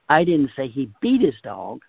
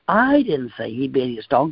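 First: The word 'beat' carries the main stress. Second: The word 'I' carries the main stress. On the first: Something milder than beating happened. "He just roughed him up a little bit" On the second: Someone else said it. "That fella over there said he beat his dog"

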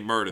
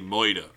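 First: The r sounds are clearly pronounced. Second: The r sounds are dropped, like oi. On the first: The speaker calls it right. "they wouldn't say murder" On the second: The speaker calls it wrong. "they say moida"

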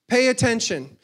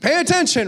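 First: It is said at normal volume. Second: It is said more loudly.

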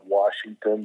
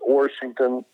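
First: It is said in the ordinary, non-local pronunciation. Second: It is said in the local natives' pronunciation.

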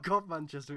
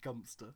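First: The name is spoken as four full syllables. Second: The name is squeezed into two short syllables. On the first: The speaker calls it wrong. "it's not God Manchester" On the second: The speaker calls it right. "it's Gumpster"

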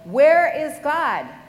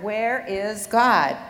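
First: It is yelled very loudly. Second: It is said slightly louder and firmly. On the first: "he yelled" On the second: "slightly louder, In a firm voice"

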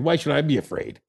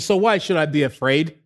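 First: It is said as a falling, cocky statement. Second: It is said as a rising question.

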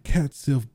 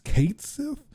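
First: The first word rhymes with 'cat'. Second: The first word rhymes with 'Kate'. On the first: This is the familiar way it was always said. "I always said it Cat Sith" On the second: This is the officially announced way to say it. "but it's Kate Sith"

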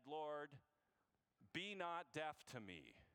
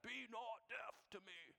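First: It is said in an American accent. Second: It is said in a put-on British accent.

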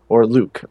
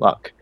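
First: The vowel is long, as in 'Luke'. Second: The vowel is short, as in 'luck'. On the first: This is the French-style pronunciation others may use. "I don't know how most people pronounce that" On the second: This is the speaker's own everyday pronunciation. "It's just Luck"

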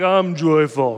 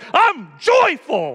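First: It is said flatly, without expression. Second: It is said with lively, expressive excitement.

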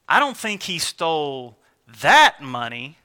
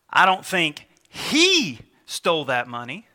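First: The stress falls on the word 'that'. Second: The stress falls on the word 'he'. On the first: He steals money, but not this particular money. "He might be out there stealing money, but" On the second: Someone else took the money. "because of the inflection on the he"

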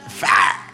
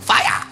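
First: It is said in an Alabama accent. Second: It is said in a Japanese accent.

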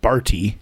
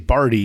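First: The word is said with crisp, careful enunciation. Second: The word is said loosely, without crisp enunciation. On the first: The speaker calls it right. "It's all about the enunciation" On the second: The speaker calls it wrong. "You say Barty"

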